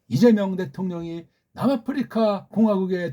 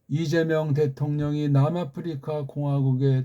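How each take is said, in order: First: It is read in a North Korean newscaster style. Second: It is read in a South Korean newscaster style. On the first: The speaker calls it right. "북한식으로" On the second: The speaker calls it wrong. "우린"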